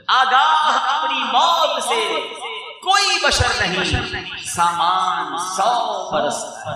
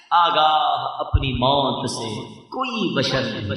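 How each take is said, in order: First: Line repeated high and loud, slow; declaimed verse, loud. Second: Slow, soft recital of the line; soft verse recital. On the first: Preacher repeating the verse on death to the crowd, loud slow declamation. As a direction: shout the verse out slowly to drive it home. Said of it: "line repeated". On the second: Preacher reciting a verse on death, soft and slow. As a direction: say the verse line slowly and softly first. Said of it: "شعر recited twice". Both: Shown as a demonstration.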